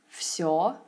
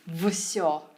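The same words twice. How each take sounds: First: Said smoothly, with the first consonant devoiced. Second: Said carefully, with the first consonant kept voiced. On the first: The speaker calls it right. "it must have sounded more effortless and natural" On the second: The speaker calls it wrong. "I'd enunciate certain sounds"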